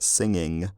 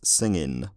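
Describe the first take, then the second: First: The word ends with an 'ng' sound. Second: The word ends with an 'n' sound. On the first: This is the older form. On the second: This is the changed form.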